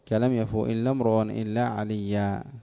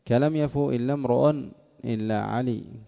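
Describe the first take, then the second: First: The last word ends in a long a vowel. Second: The last word ends in a bare consonant. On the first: This is how most Arabs pause on the word. "كان حقه أن يقول" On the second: "وقف عليه على لغة ربيعة"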